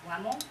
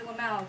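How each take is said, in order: First: The name has the original German pronunciation. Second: The name has an Americanized pronunciation. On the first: "it's pronounced Lemmel" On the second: "So she'd say, Mister Lamau"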